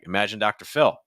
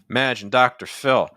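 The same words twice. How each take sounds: First: Stresses are lighter, giving a smooth, even rhythm. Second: Every word gets a strong, emphatic stress. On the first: "a little bit smoother, you would remove some of those stresses" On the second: "That's very punchy"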